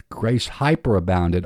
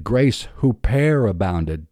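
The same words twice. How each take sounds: First: Hyperabounded, English hyper sound. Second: Huperabounded with a Greek "huper", hoo-per; huperabounded, Greek huper sound; Greek-style huper. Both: Shown as a demonstration.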